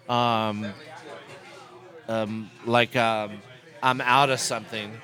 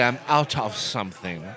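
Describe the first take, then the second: First: 'Out of' is reduced and run together as 'outta'. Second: 'Out of' is pronounced fully and carefully. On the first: "You don't say, I'm out of something, O-U-D-D-A" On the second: "You say, I'm out of something"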